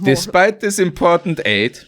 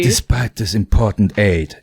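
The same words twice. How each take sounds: First: It is read in a plain, neutral way. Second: It is read in a moody, angsty way.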